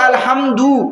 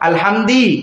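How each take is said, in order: First: The last syllable has an 'u' vowel. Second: The last syllable has an 'i' vowel. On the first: The speaker calls it right. "দালপেশ দু" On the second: The speaker calls it wrong. "পেশের জায়গায় জের দেয়"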